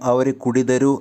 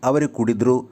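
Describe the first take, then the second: First: The verb is said with all its syllables. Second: The verb is shortened, losing a syllable. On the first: "സംഭാഷണത്തിൽ എപ്പോഴും അവർ കുടിതരു അല്ലെങ്കിൽ കുടിതറു എന്നല്ല" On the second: "അതിന് ചുരുക്കമായി"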